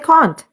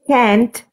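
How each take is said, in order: First: The vowel is a broad South African 'ah' sound. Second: The vowel is a flat American 'a' sound. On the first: This is the pronunciation South Africans use. "we say can't" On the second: This is the pronunciation South Africans do not use. "you don't say can't"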